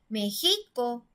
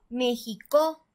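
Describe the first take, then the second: First: The stress is on the middle syllable. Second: The stress is on the last syllable. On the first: "vamos a probar si está en la penúltima sílaba" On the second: "Si fuera en la última sílaba"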